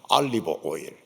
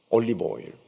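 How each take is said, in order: First: The first vowel of olive sounds like 'a'. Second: The first vowel of olive sounds like 'o'. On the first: The speaker calls it right. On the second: The speaker calls it wrong.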